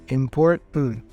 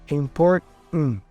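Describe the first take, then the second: No difference in how they are said.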